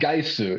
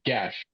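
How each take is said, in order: First: The name ends with a separate 'su' syllable. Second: The name ends with a single 'sh' sound. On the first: The speaker calls it wrong. "It's not Gaisu" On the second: The speaker calls it right. "how do you say his actual name?"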